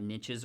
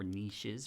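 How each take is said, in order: First: The word is said in an American way. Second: The word is said in a British way.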